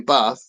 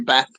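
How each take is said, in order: First: It is said with a southern English accent. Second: It is said with a northern English accent. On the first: The speaker is from the south. "but down here, he'd say bath" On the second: The speaker is from the north. "if it's from the north, he'd say bath"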